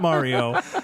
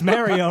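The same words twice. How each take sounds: First: The name is said with an Italian-style pronunciation. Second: The name is said with a Brooklyn pronunciation. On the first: The speaker calls it wrong. "not Mario" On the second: The speaker calls it right. "We're pronouncing it the way Brooklynites"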